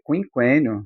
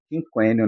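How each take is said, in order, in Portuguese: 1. O u depois de cada q é pronunciado. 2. O u depois de cada q é mudo. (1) "Eu falo é" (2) "não falo quinquênio"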